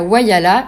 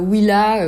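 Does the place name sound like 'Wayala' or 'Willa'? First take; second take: Wayala; Willa. First: The name sounds like three syllables, 'Wa-ya-la'. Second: The name sounds like two syllables, 'Wil-la'. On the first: The speaker calls it right. "Une fois bien arrivé à Wayala, et non pas" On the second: The speaker calls it wrong. "comme je le prononce dans les vidéos"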